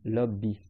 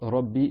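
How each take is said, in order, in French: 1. Le mot commence par un son l. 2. Le mot commence par un son r. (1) "Il dit un Lam" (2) "au lieu de dire par exemple Rabbi"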